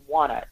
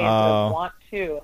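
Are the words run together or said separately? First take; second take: run together; separately. First: The two words are merged into one reduced form. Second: The two words are said fully and separately. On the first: The speaker calls it wrong. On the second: The speaker calls it right.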